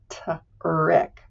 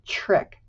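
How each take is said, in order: First: The t is said separately before the r. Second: The t and r blend into a ch-like sound. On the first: The speaker calls it wrong. "We don't say t-rick" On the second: The speaker calls it right. "We say trick, It's almost like a little ch-ch sound"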